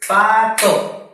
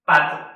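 First: "Pato" loud and high, split pa, to; two voice beats. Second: "Pato" short and whole, hit on "pa"; one quick word, "pa" strongest in "Pato"; stress on PA. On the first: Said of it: "Lo dividimos en dos sílabas o golpes de voz". ("Pato" fuerte, en dos golpes de voz) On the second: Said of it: "Vamos a ver cuál suena más fuerte". ("Pato" de un golpe, acentuando "pa") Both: Shown as a demonstration.

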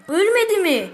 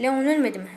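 First: Surprised disbelief. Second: Said in the usual way. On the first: Real, not acted. Repeats in disbelief, louder.

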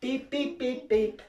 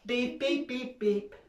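The two takes are said the same way.

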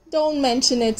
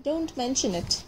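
First: Said in the usual way. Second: Much softer repeat, fading away; softer echo. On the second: Acted. Squirrel dangling from the string, softer repeat. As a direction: let it fade off to nearly nothing.

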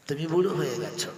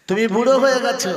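First: Said in the usual way. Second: Much higher and louder, fast wailing cry; "তুমি বুড়ো হয়ে গেছো" cried out high, loud and fast; anguished preaching cry. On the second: Acted. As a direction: fling the repeat out as an anguished cry. Preacher repeats line, then cries out.

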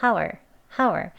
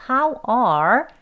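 First: "how are" squeezed into a short "how-er"; weak form. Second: "how are" as two full words, long "ar"; strong form. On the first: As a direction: shrink "are" to a quick "er" after "how". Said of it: "약형". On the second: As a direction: sound "how are" fully and slowly. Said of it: "강형에서". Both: Shown as a demonstration.

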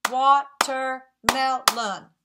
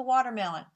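First: "Watermelon" in four slow, loud beats; "Watermelon" chopped up for clapping; syllable by syllable. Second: Said in the usual way. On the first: Shown as a demonstration. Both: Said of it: "clapped four times".

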